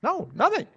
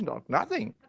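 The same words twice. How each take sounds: First: Higher voice on "No, nothing" with a rising end; mock indignant. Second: Said in the usual way. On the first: Donor mocks getting nothing from pastor, higher and indignant. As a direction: lift "nothing" up as if outraged.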